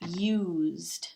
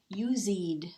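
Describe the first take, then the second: First: The ending joins the word in one syllable. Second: The ending is said as a separate syllable. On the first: The speaker calls it right. "That's way better" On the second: The speaker calls it wrong. "this would say use-ed"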